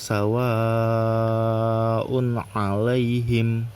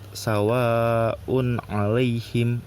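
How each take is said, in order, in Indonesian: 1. Vokal panjang itu ditahan selama empat atau lima ketukan. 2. Vokal panjang itu ditahan selama dua ketukan. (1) "dibacanya empat atau lima rokat" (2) "dua rokat"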